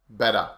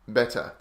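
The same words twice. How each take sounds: First: The middle consonant is a soft D sound. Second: The middle consonant is a crisp T sound. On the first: It sounds like common, natural everyday speech. "the more common natural English, and we say better" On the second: It sounds like a higher-class English accent. "the higher class or middle to higher class accents, often people say better"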